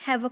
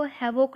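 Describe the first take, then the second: First: हैवक with a short, neutral second vowel, "HAV-uk"; correct pronunciation. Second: हैवॉक with a full, open O in the second syllable, "ha-VOKE"; wrong pronunciation. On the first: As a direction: say हैवक with the ending reduced to "vuk". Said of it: "हैवक पढ़ेंगे". (हैवक के अंत में छोटा "अ", "वक" बोलते हुए) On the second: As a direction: say हैवॉक with a clear, rounded "vok". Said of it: "इसको हैवॉक नहीं पढ़ेंगे". (हैवॉक के "वॉक" में पूरा "ऑ" बोलते हुए) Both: Shown as a demonstration.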